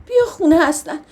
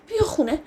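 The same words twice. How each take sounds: First: Tearful plea. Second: Tearful plea fading. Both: Acted. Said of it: "ناگهانی زدم زیر گریه".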